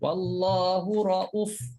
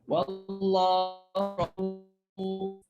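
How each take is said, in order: First: The vowel after the glottal stop is short. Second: The vowel after the glottal stop is long. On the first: "Tak ada tak ada mat lagi lah" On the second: "Itu kalau kita wakaf untuk Hafs"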